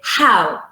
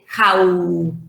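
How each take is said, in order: First: The first part of the vowel is stronger, longer. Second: Both parts of the vowel are equally strong. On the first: The speaker calls it right. "The first element is more stressed, has more quality, more emphasis, and it's longer" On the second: The speaker calls it wrong. "you don't say how, uh, like in Spanish"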